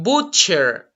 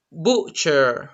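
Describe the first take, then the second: First: "butcher" with a hard T, marked as wrong; teacher's wrong "butcher"; wrong pronunciation. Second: "butcher" said slowly, as the right model; teacher's model "butcher"; correct pronunciation. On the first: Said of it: "It's not butcher". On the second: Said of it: "It's butcher". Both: Shown as a demonstration.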